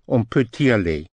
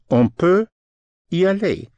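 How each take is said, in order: First: On peut y aller with the t of peut carried onto y; linked demo. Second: Higher and louder, stressing peut and y; careful demo. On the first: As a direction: glide peut straight into y, no break. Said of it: "the T can be pushed over". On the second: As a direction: lift On peut up high, then land on y aller. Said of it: "Peut, spelled P U T". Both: Shown as a demonstration.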